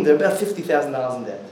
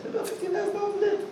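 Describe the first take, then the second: First: Said in the usual way. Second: Much higher, quick, softer gossip; a quick high shocked aside; high fast gossip voice. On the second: Retold or imitated.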